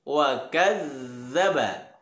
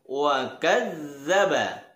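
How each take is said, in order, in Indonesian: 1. Huruf ganda itu bunyi 'dh' yang lembut. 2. Huruf ganda itu bunyi 'dh' yang lembut.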